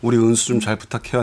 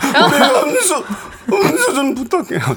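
First: The line is said in a steady voice. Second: The line is said choked up with tears.

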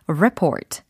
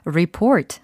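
First: The stress is on the first syllable. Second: The stress is on the second syllable. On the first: It is the noun, a report. "report 하면 보고서라는 동사와 명사 발음까지" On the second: It is the verb, to report. "report 하면 보고하다"

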